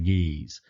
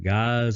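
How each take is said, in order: First: The word rhymes with peace. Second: The word rhymes with eyes.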